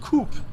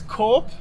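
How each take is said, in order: First: It starts unlike the 'co' in corporation. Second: It starts like the 'co' in corporation. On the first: The speaker calls it wrong. "and not Coop, like many might think" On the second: The speaker calls it right. "like corporation"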